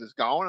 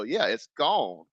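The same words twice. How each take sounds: First: "gone" turned into a question; retold question. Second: "gone" slow with a falling finish; retold confirmation. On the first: Rider hears his hat is gone, questioning "gone". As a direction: echo it back, querying "gone". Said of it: "He goes". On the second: Streamer confirms the hat is lost, slow falling "gone". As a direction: draw out "gone" as a settled answer. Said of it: "I go".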